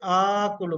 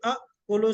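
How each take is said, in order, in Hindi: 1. लंबा स्वर बिना रुकावट के 'kulu' में मिल जाता है। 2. 'kulu' से पहले छोटा स्वर और ग्लॉटल कैच आता है। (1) "सेकंड वन को अलिफ से बदल दिया" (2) "असल में था अकुलु"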